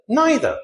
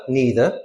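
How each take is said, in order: First: NEITHER as "NYE-ther"; British pronunciation. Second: NEITHER as "NEE-ther"; American pronunciation. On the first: Teacher recaps both forms, NYE pronunciation. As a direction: say NEITHER rhyming with "eye-ther". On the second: Teacher recaps both forms, NEE pronunciation. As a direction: say NEITHER with a long EE. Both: Shown as a demonstration. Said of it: "So we have either".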